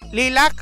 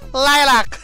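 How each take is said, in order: First: The name is said in a plain, ordinary way. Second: The name is said in a fancy, posh way.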